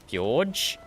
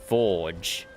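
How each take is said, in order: First: The word starts with an f then a y sound. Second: The word starts with a plain f sound. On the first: It copies another person's way of naming it. The speaker calls it wrong. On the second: It is the ordinary name. The speaker calls it right.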